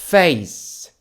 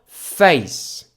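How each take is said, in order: First: It is said with English pronunciation. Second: The same.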